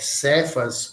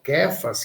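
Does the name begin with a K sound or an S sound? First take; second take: S sound; K sound. First: The name begins with a soft S sound. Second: The name begins with a hard K sound. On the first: The speaker calls it wrong. "escreve Cefas" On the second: The speaker calls it right. "que seria a pronúncia correta"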